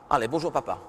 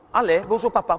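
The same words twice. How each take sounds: First: Said in the usual way. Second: Brisk hello to dad; quicker greeting. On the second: Shown as a demonstration. Mother hurrying daughter, brisk hello. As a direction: say it faster this time. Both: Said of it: "plus vite".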